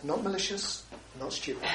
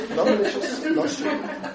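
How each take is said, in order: First: Quiet mantra. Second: Higher, lilting repeat ending in a laugh; light self-mocking mantra with a laugh; sing-song mantra. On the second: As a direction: chant it to yourself playfully. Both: Shown as a demonstration. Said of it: "I say to myself".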